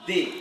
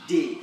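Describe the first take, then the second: First: It begins with a soft th sound. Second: It begins with a hard d sound. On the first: The speaker calls it right. "We have they" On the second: The speaker calls it wrong. "You don't say they, ... it means you are pronouncing this sound, the d sound"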